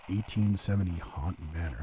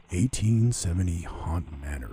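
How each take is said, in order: First: Said in the usual way. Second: Slow, drawn-out announcer voice; haunt announcer impression. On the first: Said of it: "I sound like the dude". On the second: Podcaster imitating a haunt video host, slow announcer voice. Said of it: "the dude from the Haunt Line".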